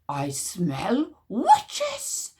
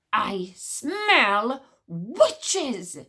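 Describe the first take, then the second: First: Very slow, drawn-out sniffing hiss; high squeaky hiss. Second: Very slow, booming doomsday cry; voice of doom. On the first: Witch smeller sniffing the crowd, squeaky slow hiss. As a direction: stretch every word like a weasel. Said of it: "hissed ... in a high, squeaky voice". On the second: Witch smeller warns the courtyard, slow voice of doom. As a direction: drag it out like a prophecy. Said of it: "cried ... in a voice of doom". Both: Acted.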